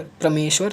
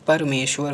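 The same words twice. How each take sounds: First: परमेश्वर begun as "pra"; wrong pronunciation. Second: परमेश्वर begun as clear "par"; correct pronunciation. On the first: Teacher rejecting an error, परमेश्वर as "pra-meshwar". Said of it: "परमेश्वर नहीं होता है". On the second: Teacher correcting the class, परमेश्वर as "par-meshwar". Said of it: "परमेश्वर होता है". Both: Shown as a demonstration.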